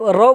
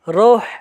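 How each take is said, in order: First: The word ends in a vowel without h. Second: The word ends with an audible h sound. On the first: This is how people commonly say it. "सिर्फ रौ बोलते हैं" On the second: This is the original form of the word. "लेकिन ये असल होता है"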